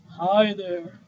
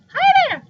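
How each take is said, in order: First: It is said in a put-on deep voice. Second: It is said in a high, thin voice.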